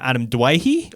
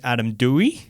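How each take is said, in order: First: The surname is said like 'Dwayhe'. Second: The surname is said like 'Dewey'. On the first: This is how the speaker used to say the name. "I used to call him" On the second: This is how other people say the name. "when people would call Adam Dewey"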